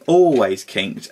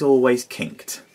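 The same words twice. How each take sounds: First: Always kinked, drawn out slowly and a bit louder, each word weighted; slow emphatic repeat. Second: Said in the usual way. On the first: Shown as a demonstration. Reviewer griping about the toy's bent back part, slow stress on Always kinked. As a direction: lean hard on Always kinked, slow and heavy.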